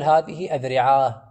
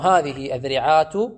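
First: The last word ends with an h sound. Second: The last word ends with a t sound. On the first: The speaker is stopping at the end of the word. "إذا وقف يقف بالهاء" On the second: The speaker carries on without stopping after the word. "إذا لم يقف بعد ينطق بالتاء مع حركتها"

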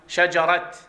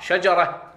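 First: The word ends with a t sound. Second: The word ends with an h sound. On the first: "البعض يقرأ الهاء يقرأها تاء" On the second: "بالهاء"

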